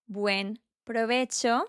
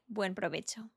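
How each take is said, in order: First: It is said slowly with a pause between words. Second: It is said fast with the words joined. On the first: "I make a pause to differentiate between the words" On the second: "at my normal speed, ... which sounds very fast"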